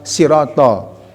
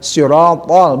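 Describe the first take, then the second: First: It starts with a light, plain s sound. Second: It starts with a heavy, emphatic s sound. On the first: The speaker calls it wrong. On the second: The speaker calls it right. "Itu ya yang sifat so-nya"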